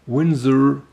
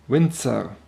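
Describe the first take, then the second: First: The z is a soft English z sound. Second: The z is a harsh ts sound. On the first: "that much softer Winzer pronunciation" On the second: "with a Z being a much harsher consonant than in English"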